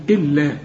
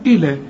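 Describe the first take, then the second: First: إلا with a long, pressed l; doubled lam. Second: إلى with one short l; single lam. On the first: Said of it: "اللام مشددة". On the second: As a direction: say إلى lightly, no doubling. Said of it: "لو مفتوحة تقول". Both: Shown as a demonstration.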